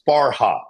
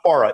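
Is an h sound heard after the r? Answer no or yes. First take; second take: yes; no. First: An h sound is heard after the r. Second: No h sound is heard after the r. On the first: The speaker calls it right. "It's Farha" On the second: The speaker calls it wrong. "we always say it wrong. It's not Farah"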